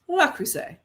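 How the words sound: The name is said with an American pronunciation. "we're American, we're gonna pronounce it like that"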